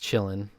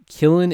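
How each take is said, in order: First: The name begins with a ch sound. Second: The name begins with a hard k sound. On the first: The speaker calls it right. "indeed pronounced chillin" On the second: The speaker calls it wrong. "I was saying Killin the whole time"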